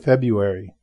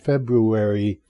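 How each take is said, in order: First: The first r sound is left out. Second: The first r sound is clearly pronounced. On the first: "without the R there, the first R. So February" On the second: "is with the first R. So it's technically it's February"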